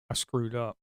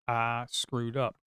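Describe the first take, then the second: First: Said in the usual way. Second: Dragged out, each word slow; slow rueful repeat; slow, drawn-out regret. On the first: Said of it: "repeated for emphasis". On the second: Real, not acted. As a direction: say it slowly, sinking in the mistake. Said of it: "repeated slowly".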